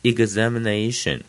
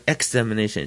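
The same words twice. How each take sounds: First: Examination begun 'igz-', voiced g-z; IGZ start. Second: Examination begun 'eks-', with a k-s sound; wrong EKS start. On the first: Teacher giving the correct reading, examination with IGZ. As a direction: say examination as ig-ZAM-i-NA-tion. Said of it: "前面的E X读一个". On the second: Teacher showing what not to say, examination with EKS. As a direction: say examination as spelt, EKS-amination. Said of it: "不是examination". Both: Shown as a demonstration.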